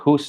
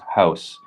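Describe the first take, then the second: First: The vowel is a single long oo sound. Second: The vowel glides as a diphthong ow sound. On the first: This is the older form before the vowel shift. "U as in hus" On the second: This is the later form after the vowel shift. "became an O"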